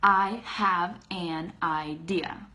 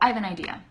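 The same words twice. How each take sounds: First: Each word is said separately with full effort. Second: The words run together smoothly and relaxed. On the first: The speaker calls it wrong. "it takes so much effort to say" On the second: The speaker calls it right. "I don't say that. I say"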